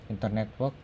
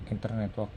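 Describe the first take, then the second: No difference in how they are said.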